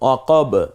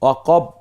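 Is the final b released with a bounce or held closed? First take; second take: bounced; closed. First: The final b bursts out with a bounce. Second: The final b is held closed without release. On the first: The speaker calls it right. "এই 2টা ঠোঁট দ্রুত আবার আলাদা হয়ে গেল" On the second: The speaker calls it wrong. "এভাবে বলছি না কিন্তু"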